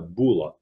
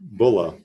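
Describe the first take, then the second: First: The first syllable sounds like 'boo'. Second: The first syllable sounds like 'bull'. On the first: Some other speakers say it this way. "you'll hear some people call it a bulla" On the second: This is the speaker's own way of saying it. "but I say bulla, not boo, but bull"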